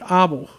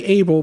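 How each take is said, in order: First: The name has a Dutch pronunciation. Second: The name has an English pronunciation. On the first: "they pronounce it Abel" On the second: "We would say Abel"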